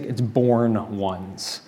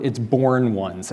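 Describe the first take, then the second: First: "born ones" drawn out very slowly, quieter, lingering on "born"; slow emphasis. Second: "born ones" said slowly, leaning on "born"; slow down and weight "born" in "born ones"; stress on born ones. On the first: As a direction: let "born ones" land, slow and soft. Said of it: "At its very core". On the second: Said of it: "in the original meaning of that word". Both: Shown as a demonstration.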